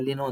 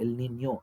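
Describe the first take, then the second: First: It is said as one word, 'ellino'. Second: It is said as 'el ninyo', with a ny sound. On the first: The speaker calls it wrong. "ಎಷ್ಟೊಂದು ಜನಕ್ಕೆ, ಎಲ್ಲ ಎಲ್ಲಿನೋ ಅಂತಾರೆ" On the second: The speaker calls it right. "ಎಲ್ ನಿನ್ಯೋ ಯಾವತ್ತು"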